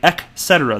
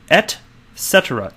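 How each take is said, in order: First: The first syllable ends with a K sound. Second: The first syllable ends with a T sound. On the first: The speaker calls it wrong. "it's like E C K" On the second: The speaker calls it right. "There is no letter K right there"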